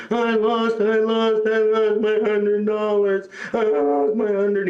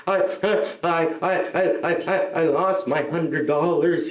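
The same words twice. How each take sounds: First: High, drawn-out mock wail; imitated screaming child. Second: Halting, hiccuping mock sobs; imitated crying child. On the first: Kid screams on floor over lost money, mock wail. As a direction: wail it on one high, stretched note. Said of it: "He's screaming". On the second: Kid tells comedian of lost money, stammering mock sobs. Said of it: "this kid started crying".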